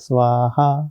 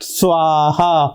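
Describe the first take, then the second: First: The word is said plainly and calmly. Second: The word is said forcefully, in anger. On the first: The offering is meant to bring good effects. "Simple बात है" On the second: The offering is meant to drive away harmful influences. "गुस्से में आकर"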